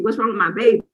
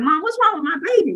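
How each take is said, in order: First: The plea repeated, dropping back down; fading panic. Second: Higher and fast, retelling panic; mock frantic plea to Mom; panicked plea. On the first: Retold or imitated. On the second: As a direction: blurt it out to Mom, frightened and rushed. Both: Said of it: "now I'm crying".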